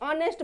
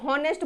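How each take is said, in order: First: The word begins directly with a vowel. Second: The word begins with an h sound. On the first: The speaker calls it right. "ऑनेस्ट बोलते हैं" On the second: The speaker calls it wrong. "हॉनेस्ट बोलते हैं क्या, नहीं बोलते"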